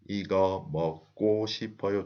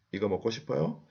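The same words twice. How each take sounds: First: 이거 먹고 싶어요 in separated syllables, level pitch, 먹고 as "meok-kko"; pronunciation demo. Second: 이거 먹고 싶어요 as a question, climbing on 요; rising question intonation. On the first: Teacher reminds learners how she pronounces 먹고, 이거 먹고 싶어요 level and syllable by syllable. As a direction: spell out 이거 먹고 싶어요 by sound, evenly, without the question rise. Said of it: "I pronounce 먹고". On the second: Teacher repeats the question for learners, 이거 먹고 싶어요 rising at the end. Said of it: "the intonation goes up". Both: Shown as a demonstration.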